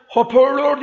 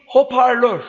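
First: "Hoparlör" said hoporlor with o vowels; higher, with o in place of a in "Hoparlör"; wrong pronunciation. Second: Said in the usual way. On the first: Shown as a demonstration. Teacher demonstrates the mistaken "Hoparlör", pitched higher. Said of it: "Hoparlör değil".

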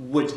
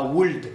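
First: Would with no L, like "wood"; correct silent L. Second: Would mispronounced with the L audible, "woold"; wrong sounded L. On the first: Teacher corrects the mistake for learners, silent L. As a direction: leave the L out of would. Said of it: "on écrit le L". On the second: Teacher shows learners the mistake, audible L in would. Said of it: "on dit pas would". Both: Shown as a demonstration.

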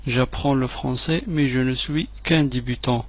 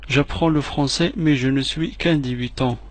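No difference in how they are said.

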